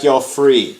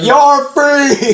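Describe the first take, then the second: First: It is said in a quiet, flat way. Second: It is said loudly, almost yelled.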